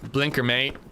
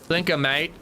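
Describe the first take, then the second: First: It is said in the speaker's plain accent. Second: It is said in an Australian accent.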